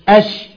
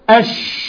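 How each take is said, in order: First: The sh sound is voiced. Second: The sh air spreads and fills the mouth. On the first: "لو صوت كتبقى أش أش" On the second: "تحس إن الهواء ملى الفم وعمال يتقلب فيه"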